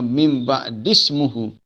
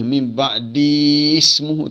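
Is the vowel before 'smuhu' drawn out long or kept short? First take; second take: short; long. First: The vowel before 'smuhu' is kept short. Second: The vowel before 'smuhu' is drawn out long. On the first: The speaker calls it right. "Kena mim ba'dismuhu Ahmad" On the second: The speaker calls it wrong. "Jadi kita tak boleh panjangkan di tu. Tak boleh mim ba'dismuhu"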